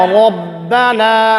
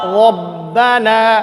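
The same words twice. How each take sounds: First: The first sound is said with unrounded lips. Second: The same.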